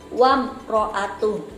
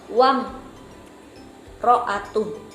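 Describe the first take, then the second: First: It runs on clearly without stopping after 'wam'. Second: It stops too long after 'wam'. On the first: The reading continues without a halt. The speaker calls it right. "Yang benar adalah" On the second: The reading wrongly sounds like a halt. The speaker calls it wrong. "contoh salah dalam membaca idhar"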